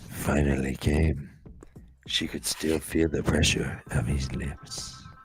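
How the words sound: It is read in a dramatic, throaty voice.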